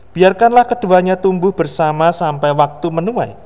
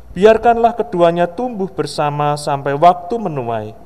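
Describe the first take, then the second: Both takes have the same delivery.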